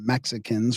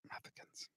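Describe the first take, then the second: First: The middle consonant sounds like 'ks'. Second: The middle consonant sounds like 'th'.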